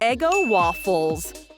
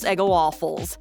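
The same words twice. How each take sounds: First: The phrase is said at a normal pace. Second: The phrase is said quickly, running together.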